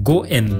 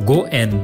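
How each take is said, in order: Both takes have the same delivery.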